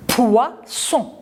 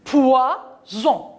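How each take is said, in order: First: Poisson with a sharp unvoiced s; pronounce s. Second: Poison with the S voiced as z; pronounce z. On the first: Teacher contrasting poisson with poison. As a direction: hiss the ss in poisson. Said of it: "il y a deux S". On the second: Teacher modelling Poison for the children. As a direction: buzz the z in Poison. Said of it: "Je prononce ze". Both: Shown as a demonstration.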